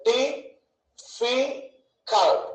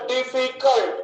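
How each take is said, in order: First: "డిఫికల్ట్" very slowly as di, fi, cult; split into syllables. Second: Said in the usual way. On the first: Shown as a demonstration. Teacher counting three syllables, "డిఫికల్ట్" broken into beats. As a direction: leave long gaps between the three beats of "డిఫికల్ట్". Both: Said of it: "ఎన్నని".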